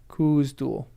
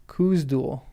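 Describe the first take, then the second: No difference in how they are said.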